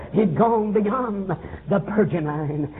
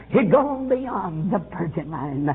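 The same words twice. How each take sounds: The two takes are said the same way.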